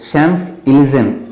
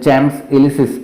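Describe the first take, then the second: First: It begins with an sh sound, French style. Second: It begins with a ch sound, English style. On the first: The speaker calls it right. "शॅम्स इलिझेम असा उच्चार त्याचा करायचा आहे" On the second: The speaker calls it wrong. "आपण जर आपल्या इंग्रजी भाषेमध्ये वाचलं तर ते चॅम्स इलिसिस असं होतं, परंतु तसा उच्चार करायचा नाही आहे"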